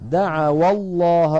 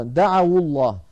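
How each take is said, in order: First: Slow, louder "دعوا الله" slipped into "da'awallah"; mistaken linking vowel. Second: Louder "دعوا الله" corrected to "da'awullah"; damma on waw. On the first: Real, not acted. Teacher misreading an example, "دعوا الله" linked with fatha. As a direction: recite دعوا loudly and slowly with an a-vowel into الله. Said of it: "عفوًا". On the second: Shown as a demonstration. Teacher correcting himself, "دعوا الله" joined with damma. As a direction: link دعوا to الله with a u-vowel, firmly. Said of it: "حركت الواو بالضم".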